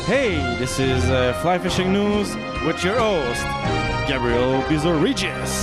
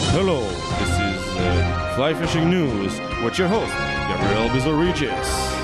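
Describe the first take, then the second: First: It is said in a normal voice. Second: It is said in a deep voice.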